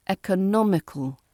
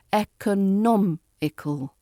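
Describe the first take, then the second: First: "economical" joined up, stressed on NOM, falling; connected third-syllable stress. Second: "economical" slowly broken up, ec-o-NOM-ical; syllable-by-syllable stress. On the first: Teacher putting the word back together, stress on NOM. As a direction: say "economical" in one piece, leaning on NOM. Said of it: "we put the stress on the third". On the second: Teacher showing five syllables, slow broken-up stress on NOM. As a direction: spell out the beats of "economical", weight on NOM. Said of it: "of the five syllables". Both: Shown as a demonstration.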